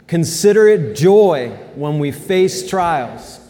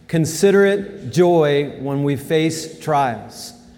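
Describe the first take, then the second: First: It is read with passion and urgency. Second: It is read in a calm, even way.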